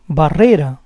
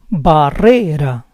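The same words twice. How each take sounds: First: Said in the usual way. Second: Barrera split as ba-RRE-ra; syllable by syllable. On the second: Shown as a demonstration. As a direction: say Barrera in parts, stressing RRE. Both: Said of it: "try to understand the rules".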